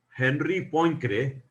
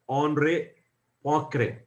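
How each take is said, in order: First: The name is said with English-style pronunciation. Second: The name is said with French-style pronunciation. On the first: The speaker calls it wrong. "it is not pronounced at, as" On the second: The speaker calls it right. "but it is pronounced as"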